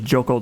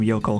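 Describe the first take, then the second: First: The name begins with a hard J sound. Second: The name begins with a soft Y sound. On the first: This would have been a worse mistake. "not a hard J" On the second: This is how the speaker has been saying it. "at least it was with a soft J"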